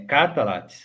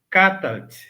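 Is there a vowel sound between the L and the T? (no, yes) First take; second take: yes; no. First: A vowel is heard between L and T. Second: No vowel is heard between L and T. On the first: The speaker calls it wrong. "se você quiser pronunciar é, catalat, não tem problema" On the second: The speaker calls it right. "eu pronuncio sem enfatizar o L"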